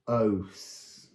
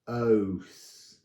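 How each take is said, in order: First: The vowel sounds like the letter name O. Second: The vowel sounds like the letter name O.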